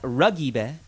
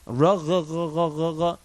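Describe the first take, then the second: First: The middle consonant is a hard g. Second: The middle consonant is a soft gh. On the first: The speaker calls it wrong. "it's not ragiba" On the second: The speaker calls it right. "It's like a soft gi"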